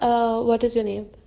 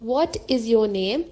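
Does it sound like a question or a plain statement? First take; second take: statement; question. First: It is said flatly, like a plain statement. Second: It is said with a clear questioning tune. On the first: "एक simple बोल दूंगी" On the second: "इससे पता चल रहा है कि मैं ओके okay, क्वेश्चन"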